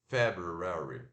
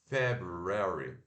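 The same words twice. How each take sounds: No difference in how they are said.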